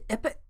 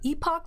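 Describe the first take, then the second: First: The second syllable is reduced, like 'epic'. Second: The second syllable has a full 'pock' vowel. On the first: The speaker calls it wrong. "people sometimes pronounce it like almost like the word epic" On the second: The speaker calls it right. "I prefer epoch"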